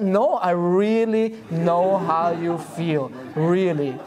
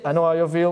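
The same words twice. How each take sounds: First: Slow, earnest, every word meant; sincere insistence. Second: Rattled off like a parrot, no feeling. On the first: Retold or imitated. Husband to wife who doubts him, slow and sincere. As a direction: convince her you truly mean it. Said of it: "You just say it." I said". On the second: Shown as a demonstration. Speaker mocking a husband repeating the mantra, parrot-like. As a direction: say it mechanically, just the words. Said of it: "like a papagay".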